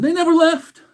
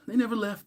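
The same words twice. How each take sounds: First: High and loud, never punched; excited exclamation. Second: Said in the usual way. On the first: Real, not acted. Hyping chat about the boys being back, loud and excited. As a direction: shout it out, hyped.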